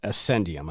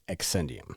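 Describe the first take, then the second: First: The name begins with an 'ass' sound. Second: The name begins with an 'ex' sound. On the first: The speaker calls it right. "it's pronounced like A S S E N D" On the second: The speaker calls it wrong. "I kept saying Excendium"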